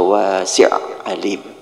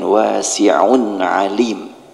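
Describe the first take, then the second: First: The n-sound of the tanwin is left out. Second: The n-sound of the tanwin is clearly pronounced. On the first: The speaker calls it wrong. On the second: The speaker calls it right.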